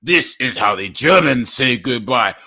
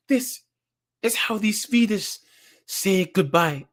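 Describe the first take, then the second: First: German guy's farewell. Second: A light, slow, higher Swedish woman's voice; slow the goodbye down, a hint of flirtation; Swedish woman's farewell. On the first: Retold or imitated. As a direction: lower and louder mock-tough German man. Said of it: "And then the German guy goes". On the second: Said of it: "the Swedish chick kisses him and goes".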